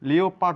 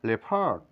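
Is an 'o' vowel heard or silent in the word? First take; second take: heard; silent. First: An 'o' vowel is sounded after the first syllable. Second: No 'o' vowel is sounded after the first syllable. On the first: The speaker calls it wrong. "লিওপার্ড নয়" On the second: The speaker calls it right. "ও এর sound নেই"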